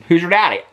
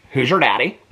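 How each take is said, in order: First: Hoosier Daddy with a punch on Daddy and a falling end; punchline delivery. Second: Said in the usual way. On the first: Shown as a demonstration. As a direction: land Daddy as the joke, a bit louder. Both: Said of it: "t-shirts that say Hoosier Daddy".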